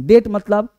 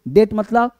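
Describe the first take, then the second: The two takes are said the same way.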